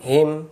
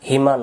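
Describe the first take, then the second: First: The word ends on a consonant sound. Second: The word ends with a vowel sound. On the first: The speaker calls it right. "উচ্চারণগুলো এমন হবে হিম" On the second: The speaker calls it wrong. "হিমা নয়"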